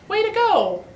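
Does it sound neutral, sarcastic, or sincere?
sincere. It is said with a sincere, pleased tone.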